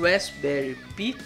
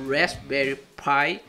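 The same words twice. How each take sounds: First: It is said with a Portuguese pronunciation. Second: It is said with an English pronunciation. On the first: This is how local speakers would say it. "o mais próximo do nosso português" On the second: This is how it is said where it was made. "ele tem a pronúncia correta"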